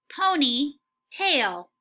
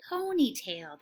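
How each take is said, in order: First: Slow, stretched out ponytail; slow model word. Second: Said in the usual way. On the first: Shown as a demonstration. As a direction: say "Ponytail" slowly, drawn out syllable by syllable. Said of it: "Try and say it right before me". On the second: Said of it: "That's what I heard you say".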